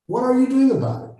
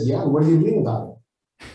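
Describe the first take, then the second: First: Pushing challenge. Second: Said in the usual way. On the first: Retold or imitated. Coach confronting a complainer, repeating the question much higher. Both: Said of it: "I said".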